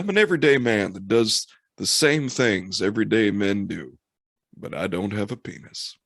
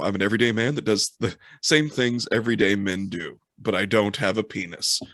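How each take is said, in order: First: It is said in a folksy voice. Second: It is said in a plain voice.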